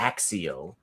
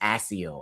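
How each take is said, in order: First: The middle consonant is a hard K-S sound. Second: The middle consonant is a soft S sound. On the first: "movies go Axio" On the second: "I didn't think there was a a hard C in there"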